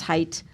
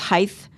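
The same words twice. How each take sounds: First: The word ends with a hard t sound. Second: The word ends with a th sound. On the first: The speaker calls it right. "The word is height" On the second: The speaker calls it wrong. "There is no word such as height"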